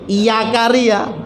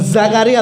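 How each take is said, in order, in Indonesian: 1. Nama itu diawali dengan bunyi y. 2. Nama itu diawali dengan bunyi z. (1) "tapi iya karya ya" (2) "bukan Zakaria"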